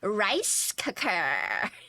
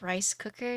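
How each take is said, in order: First: The words are said with strong, exaggerated emphasis. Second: The words are said in a plain, neutral way. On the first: "she just emphasizes the word" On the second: "she doesn't even say like rice cooker"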